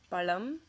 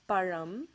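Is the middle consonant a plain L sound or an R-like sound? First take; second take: L sound; R-like sound. First: The middle consonant is a plain L sound. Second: The middle consonant is an R-like sound. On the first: The speaker calls it wrong. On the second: The speaker calls it right.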